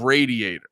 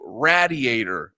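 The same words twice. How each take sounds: First: The first syllable sounds like 'ray'. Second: The first syllable sounds like 'rad'. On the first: This is the usual way to say it. "instead of radiator" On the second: This is how people from Philly say it. "they would always say radiator"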